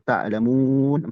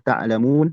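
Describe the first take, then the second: First: The long vowel is held for four counts. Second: The long vowel is held for two counts. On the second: "dua harokat"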